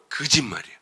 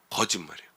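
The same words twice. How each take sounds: First: 거짓말이에요 with 거 turned into emphatic 그; colloquial 그짓말. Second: Said in the usual way. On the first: Shown as a demonstration. Preacher topping the plain word for a lie, 거짓말이에요 said colloquially as 그짓말이에요. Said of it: "아니, 거짓말도 아니고요". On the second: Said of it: "거짓말도 아니고요".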